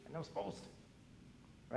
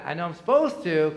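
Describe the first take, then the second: First: Slow, breathy whisper, almost to himself; whispered confession. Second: Said out loud, firmly, a bit louder; dutiful admission. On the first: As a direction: whisper it like a guilty secret. Pastor repeats the duty to himself. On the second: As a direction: state it plainly as an obligation. Pastor admits reading out of duty. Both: Retold or imitated.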